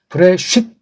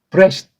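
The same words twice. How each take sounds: First: The final t is followed by a full vowel. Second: The final t is a light puff of breath. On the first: The speaker calls it wrong. "이런 것도 아니고" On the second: The speaker calls it right. "슬쩍 이렇게 얹지 않습니까? 바람 빠진 소리죠"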